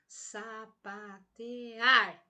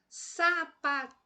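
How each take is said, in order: First: The stress is on the syllable ar. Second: The stress is on the syllable te. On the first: The speaker calls it right. "esta última sílaba como sendo uma sílaba mais intensa" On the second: The speaker calls it wrong. "eu vou forçar aí o T"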